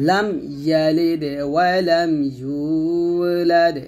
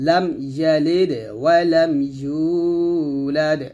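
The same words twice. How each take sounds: Both takes have the same delivery.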